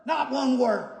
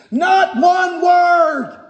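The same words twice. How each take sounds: First: Softer echo of "Not one word"; hushed repeat. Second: Loud, high, slow proclamation of "Not one word"; emphatic declaration. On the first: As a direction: drop the volume and let it sink in. Preacher repeats the phrase softly. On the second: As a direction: hammer out each word, raised and drawn out. Preacher drives home the verse's key phrase. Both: Shown as a demonstration.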